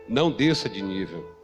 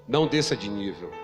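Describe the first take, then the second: Both takes have the same delivery.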